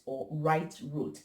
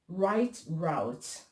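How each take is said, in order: First: Route is said the European way. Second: Route is said the American way.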